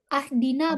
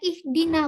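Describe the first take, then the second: First: The word begins with an a vowel. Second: The word begins with an i vowel. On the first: The speaker calls it wrong. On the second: The speaker calls it right. "harokat kasroh. Jadi saya baca ihdina"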